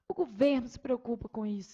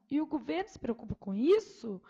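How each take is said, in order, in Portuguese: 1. É dito com ênfase forte, como exclamação. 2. É dito com uma subida de tom interrogativa. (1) "exclamação" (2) "interrogação"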